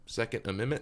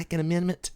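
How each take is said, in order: First: It is said at a quieter volume. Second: It is said at a louder volume.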